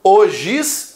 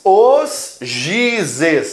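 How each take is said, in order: First: Said in the usual way. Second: Os gizes drawn out, GI held long; correct plural. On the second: Shown as a demonstration. Teacher contrasting with the singular, gizes stretched as GI-zes. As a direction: stretch os and GI, then add zes. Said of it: "o plural é gizes".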